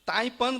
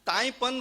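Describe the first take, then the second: No difference in how they are said.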